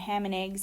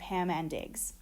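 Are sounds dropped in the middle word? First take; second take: yes; no. First: Sounds in the middle word are dropped. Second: All sounds in the middle word are kept. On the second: "instead of"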